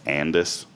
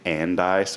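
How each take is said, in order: First: The name ends with an 'iss' sound. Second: The name ends with an 'ice' sound. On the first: The speaker calls it right. "someone told me that it's Andis" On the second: The speaker calls it wrong. "I always say Andice"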